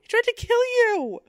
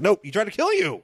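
First: Even higher squeaky echo; high-pitched. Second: Much higher mock voice; high-pitched. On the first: Pretend. Repeats partner's quote higher. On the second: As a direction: squeak the line up high.

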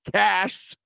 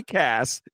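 First: "Cash" drawn out with a long final sh; corrected name. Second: "Cass" slowly, ending in a clear s; contrasted name. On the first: Host fixing his slip on the singer's name, "[name]" drawn out with sh. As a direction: stretch "Cash", stressing the sh ending. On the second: Host ruling out the columnist, "[name]" with a crisp s. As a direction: end "Cass" on s, with no sh. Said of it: "[name] is the right-wing". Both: Real, not acted.

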